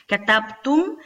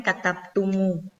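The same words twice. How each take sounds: First: "Katabtum" ending on a closed M. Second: "katabtumu" with an extra U after the M; added final vowel. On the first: Teacher showing the form before the change, closed M. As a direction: stop "Katabtum" on the M, no vowel after it. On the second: Teacher showing the changed form, added U. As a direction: open the end of "katabtumu" onto U. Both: Shown as a demonstration. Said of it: "se convierte en katabtumu".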